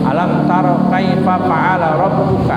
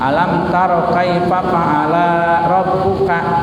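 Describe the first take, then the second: First: The vowel after the L is short. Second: The vowel after the L is long. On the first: The speaker calls it right. "yang pertama saya baca" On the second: The speaker calls it wrong. "Lamnya dibaca pan panjang"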